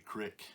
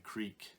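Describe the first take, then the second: First: The word has a short 'i' vowel. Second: The word has a long 'ee' vowel. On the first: This is how locals in the home region say it. "We say crick" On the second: This is how people elsewhere say it. "We don't say creek in North Central P A"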